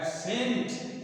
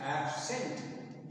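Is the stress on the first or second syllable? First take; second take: second; first. First: The stress is on the second syllable. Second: The stress is on the first syllable. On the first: The word is used as a verb. "जब उसको verb के रूप में प्रयोग करते हैं ये हो जाता है" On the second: The word is used as a noun. "Absent ये सही है नाउन के रूप में"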